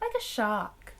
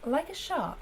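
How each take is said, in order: First: It is said in an attempted Scottish accent. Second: It is said in the speaker's usual accent. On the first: The speaker calls it wrong. "how do you say shark in a Scottish accent?" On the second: The speaker calls it right. "just do my normal accent"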